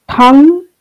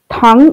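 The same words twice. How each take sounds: First: THANG said on a high tone. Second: THANG said on a low tone. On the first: Lecturer giving a Tibetan example, thang on high tone. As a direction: lift the pitch on thang. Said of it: "with a high tone". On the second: Lecturer contrasting Tibetan words, thang on low tone. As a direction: keep thang down in pitch. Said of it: "with a low tone". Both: Shown as a demonstration.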